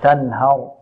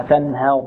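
First: تنهر with a clear open a on a light ه; open fatha. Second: تنهر with ه leaning toward "he"; tilted fatha. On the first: Teacher correcting the reduced vowel, open fatha. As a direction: say تنهر slowly, ه untilted. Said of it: "لا، تنهر". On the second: Teacher repeating a warning on reduced fatha, tilted vowel. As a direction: show the faulty reduced a in تنهر. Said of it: "نحذر من تقليل الفتحة". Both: Shown as a demonstration.

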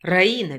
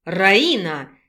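First: Said in the usual way. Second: A sharp, low call of Раина; displeased shout. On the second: A narrator's reading. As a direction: bark Раина in annoyance. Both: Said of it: "недовольно крикнул мужчина".

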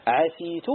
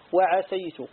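First: عسيت with an i after the s; the kasra reading; kasra on sin. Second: وعسيت with an a after the s; the fatha reading; fatha on sin. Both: Shown as a demonstration. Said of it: "في سينه وجهان".

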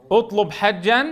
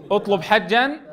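The two takes are said the same way.

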